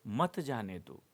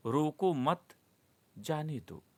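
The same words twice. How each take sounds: First: मत जाने दो as one unbroken phrase; मत joined to जाने दो. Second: रोको मत together, a clear break, then जाने दो; pause after मत. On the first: Teacher showing the comma's effect, मत grouped with जाने दो. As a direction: run मत straight into जाने दो, falling at the end. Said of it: "कामा है". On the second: Teacher reading the third example sentence, pause after मत. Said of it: "रोको मत के बाद कामा है". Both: Shown as a demonstration.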